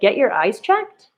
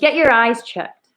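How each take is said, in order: First: It ends rising, said like a question. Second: It ends falling, said forcefully like an exclamation.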